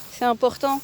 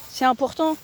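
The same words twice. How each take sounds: The two takes are said the same way.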